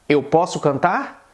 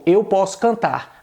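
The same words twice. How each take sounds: First: "eu posso cantar" slowly asked, rising on "cantar"; question intonation. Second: "eu posso cantar" slowly stated, tune falling; statement intonation. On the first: Teacher turns the example into a question, rising tune. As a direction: ask "eu posso cantar" with a rise at the end. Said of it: "se eu quiser perguntar". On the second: Teacher affirms the translated example, as a falling statement. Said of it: "na qual eu afirmo". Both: Shown as a demonstration.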